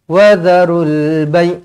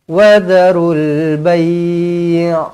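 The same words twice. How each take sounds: First: The final syllable stops abruptly. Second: The final syllable is drawn out long. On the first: The speaker calls it wrong. "Jangan berhenti mengejut" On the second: The speaker calls it right. "dia panjang macam tu"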